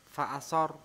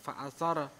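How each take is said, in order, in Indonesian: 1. Bunyi r di akhir berakhir datar tanpa pantulan. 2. Bunyi r di akhir berakhir dengan lepasan yang memantul. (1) "ini sarnya tidak dipantulkan, tidak memantul" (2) "bukan begitu"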